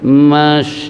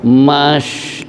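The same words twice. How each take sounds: First: The sh sound is spread moderately. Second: The sh sound is spread very strongly. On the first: The speaker calls it right. "wusta tengah-tengah" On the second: The speaker calls it wrong. "jangan terlalu"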